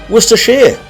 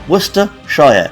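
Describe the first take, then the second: First: The ending is reduced, not a full 'shire'. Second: The ending is said as a full 'shire'. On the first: The speaker calls it right. "that's what we call it" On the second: The speaker calls it wrong. "Like Lord of the Rings, Shire"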